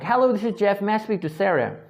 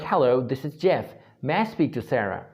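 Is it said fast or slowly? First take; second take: fast; slowly. First: It is said too fast. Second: It is said slowly and clearly.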